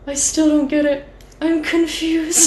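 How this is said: It is said in a put-on haunting voice.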